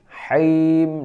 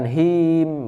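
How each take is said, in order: First: The h is rasped deep in the throat. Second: The h is a light, plain breath. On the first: The speaker calls it right. "tapi haim di tenggorokan ya" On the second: The speaker calls it wrong. "bukan him"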